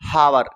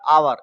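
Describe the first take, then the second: First: The word begins with an h sound. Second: The word begins with a vowel sound.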